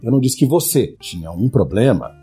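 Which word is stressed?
você. The word "você" is stressed.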